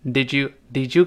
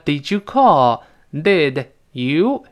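First: "did you" run together as "di-joo"; merged sounds. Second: "Did" and "You" said slowly, each on its own; separate words. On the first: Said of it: "碰到耶变成字". (did you连读成“di-ju”) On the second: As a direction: keep the d of "Did" apart from "You". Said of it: "当然变成did you". (Did和You分开慢读) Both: Shown as a demonstration.

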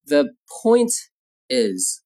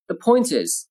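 First: Slow, with a pause before the last word; slow model phrase. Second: Said in the usual way. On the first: Shown as a demonstration. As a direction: say it in separate pieces for learners.

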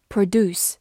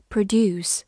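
First: "produce" American-style, "doos" with no y-glide; American pronunciation. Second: Said in the usual way. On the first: Shown as a demonstration. Teacher showing learners the verb "produce", American pronunciation "pruh-DOOS". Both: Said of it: "美式发音".

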